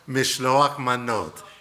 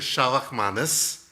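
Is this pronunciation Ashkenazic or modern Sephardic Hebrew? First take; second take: Sephardic; Ashkenazic. First: It uses the modern Sephardic Hebrew pronunciation. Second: It uses the old Ashkenazic Hebrew pronunciation.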